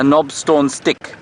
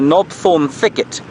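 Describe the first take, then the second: First: The second word is cut down to 'stick'. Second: The second word is said in full as 'thicket'. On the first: The speaker calls it wrong. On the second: The speaker calls it right.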